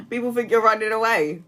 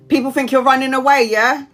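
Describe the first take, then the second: First: Said in the usual way. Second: Louder, higher read of a comment; emphatic read. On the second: Real, not acted. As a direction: read it out with a punch.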